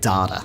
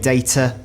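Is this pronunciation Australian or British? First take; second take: Australian; British. First: It is said in an Australian accent. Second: It is said in a British accent. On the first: "Aussies say data. And they do that thing again where they soften the T" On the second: "Brits say data"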